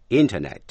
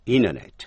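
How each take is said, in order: First: Said in the usual way. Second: "Internet" said as "inenet", the T dropped; fast reduced form. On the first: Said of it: "thứ nhất là đọc rõ". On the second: Shown as a demonstration. Teacher giving students the fast version. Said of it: "thứ hai là đọc nhanh".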